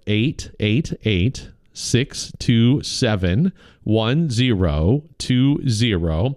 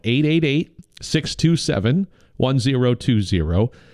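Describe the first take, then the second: First: The number is read at a slower pace. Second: The number is read at a faster pace.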